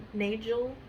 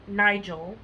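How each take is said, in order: First: "Nigel" with first vowel as in "day", tentative lift; Nigel with long a. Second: "Nigel" with first vowel as in "eye", questioning lift; Nigel with long i. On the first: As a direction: say "Nigel" as NAY-jul, slowly. Second try at author's surname. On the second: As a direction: say "Nigel" as NYE-jul. Tries two readings of author's surname. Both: Real, not acted.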